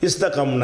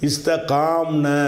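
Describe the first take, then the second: First: The middle vowel is cut short. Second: The middle vowel is held long. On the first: The speaker calls it right. "அலிஃபா மாற்றி அந்த அலிஃபை நீக்கிடுறோம்" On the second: The speaker calls it wrong. "இஸ்தகாம்னு வரும் பொழுது ரெண்டு சுக்குன் வந்துடுது"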